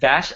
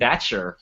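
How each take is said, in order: First: The name is said the non-English way. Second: The name is said the English way. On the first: "I said Vash" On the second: "the English way, the wrong way of saying it"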